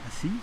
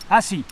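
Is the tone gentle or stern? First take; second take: gentle; stern. First: It is said in a gentle, coaxing tone. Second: It is said in a stern, angry tone. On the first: A polite request. "dans le premier cas, assieds-toi s'il te plaît" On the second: An angry order. "Dans le deuxième cas, eh bien, assieds-toi nom de Dieu"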